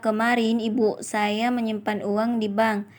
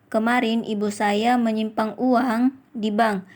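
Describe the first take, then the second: First: The stress is on ibu. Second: The stress is on uang. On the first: "kalimat kedua mendapatkan tekanan pada kata ibu" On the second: "Kalimat kelima mendapatkan tekanan pada kata uang"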